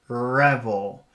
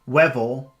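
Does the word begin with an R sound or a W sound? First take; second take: R; W. First: The word begins with an R sound. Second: The word begins with a W sound. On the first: The speaker calls it right. "redirect the focus to the top of your mouth" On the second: The speaker calls it wrong. "If you say it with a W, you can feel the focus down here"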